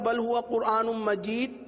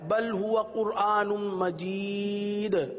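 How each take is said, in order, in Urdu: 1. آخری د میں کوئی واضح جھٹکے والی ادائیگی نہیں ہے۔ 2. آخری د میں واضح جھٹکے والی ادائیگی ہے۔ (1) "عموماً پڑھا تھا ... دال کا کلکلا واضح نہیں ہوا" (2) "دال والا"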